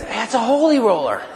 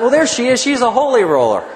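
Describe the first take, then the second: First: A hint of grandma, higher, laughing; imitating grandmother. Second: Laughing through it, higher and louder; amused thought. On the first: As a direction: tease it the way grandma did, with a laugh. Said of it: "I'll never forget my grandmother going". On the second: Retold or imitated. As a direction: chuckle at the holy roller. Recalling his amused thought.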